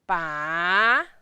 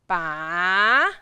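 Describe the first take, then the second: First: It is said with the third tone. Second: It is said with the third tone.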